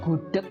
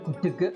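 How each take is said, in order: First: The word ends with a clipped k sound. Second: The word ends with a voiced g and vowel. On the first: The speaker calls it right. "gudeg berubah menjadi uh, bunyi ek di bagian belakang" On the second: The speaker calls it wrong. "bukan gudege"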